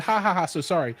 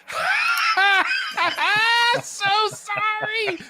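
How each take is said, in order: First: Said in the usual way. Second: High cackling mock apology; shrill-pitched gloating laugh, drawn out; mocking evil laugh. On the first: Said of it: "He said". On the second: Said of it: "That's how he really said it".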